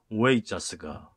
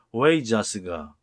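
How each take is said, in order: First: 웨이자스가 said again slowly at normal level; slow repeat of the word. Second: 웨이자스가 said slowly, syllable by syllable, a little louder; slow pronunciation demo. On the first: (웨이자스가를 천천히 다시 한 번) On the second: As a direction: spell out 웨이자스가 slowly and clearly. (웨이자스가를 천천히 또박또박) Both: Shown as a demonstration. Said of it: "보이 발음은 응 발음이죠".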